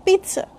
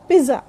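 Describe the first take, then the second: First: Pizza said carefully as PEET-suh; correct pronunciation. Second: Pizza with a plain z, PEE-za; common mispronunciation. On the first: Teacher summing up pizza, PEET-suh. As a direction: put a ts inside pizza. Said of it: "the correct pronunciation is". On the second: Teacher showing what people generally say, PEE-za. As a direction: drop the t sound from pizza. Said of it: "Generally we say". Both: Shown as a demonstration.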